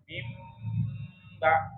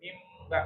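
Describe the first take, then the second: First: The nasal m is held steadily for longer. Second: The nasal m is rushed and cut short. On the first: The speaker calls it right. "nah, gitu" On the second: The speaker calls it wrong. "jangan mimba itu kecepatan"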